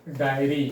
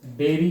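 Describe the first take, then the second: First: डायरी said as "dai-ree" with a long ai; diary. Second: डेयरी said as "day-ree" with a short e; dairy. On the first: Teacher reading the word to students, clear "dai-ree". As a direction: say डायरी with an open "ai" glide at the start. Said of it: "ये हो गया डायरी". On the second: Teacher contrasting the word for students, clear "day-ree". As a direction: say डेयरी with a flat "e" at the start, no glide. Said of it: "डेयरी, D A I R Y". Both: Shown as a demonstration.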